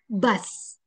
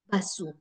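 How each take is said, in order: First: The word ends in a plain s sound. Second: The word ends with an added su syllable.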